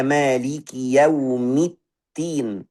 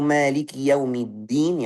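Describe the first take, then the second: First: "yaumiddin" said as "yaumittin"; slow recital, airy t in place of the d of "yaumiddin"; ta with hams. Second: "yaumiddin" with a voiced, doubled d; correct dal. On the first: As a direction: put a puffed t in "yaumiddin". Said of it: "kalau kita pakai ta dengan hamas". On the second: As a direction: recite "yaumiddin" with a firm d, no puff of air. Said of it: "yang benar". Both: Shown as a demonstration.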